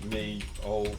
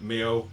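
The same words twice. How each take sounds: First: Put-on "me old" as two distinct words; separated words. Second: "Meo" loud, slurred into one word like a cat's meow; run-together pronunciation. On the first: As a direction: spell out "me old" slowly, word by word. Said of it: "like, me old". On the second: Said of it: "it's me old mucker". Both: Shown as a demonstration.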